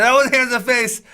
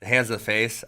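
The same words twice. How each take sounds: First: High, loud reenacted protest; imitating his own outburst; retold yell. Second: Said in the usual way. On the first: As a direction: yell the call at the referee, pitched way up. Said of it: "I was really loud". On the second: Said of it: "I, yeah, I did yell".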